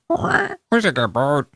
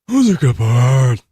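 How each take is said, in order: First: It is said in a chirpy parrot voice. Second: It is said in a haunting raven voice.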